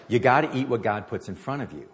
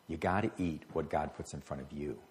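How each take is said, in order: First: Louder, pressing the point home; emphatic repeat. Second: Quieter, lower, letting it sink in; soft echo. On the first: Preacher repeating a friend's advice, louder and emphatic. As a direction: drive the advice in with force. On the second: Preacher echoing the advice to the congregation, soft and low. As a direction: say it again gently, almost to yourself. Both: Retold or imitated.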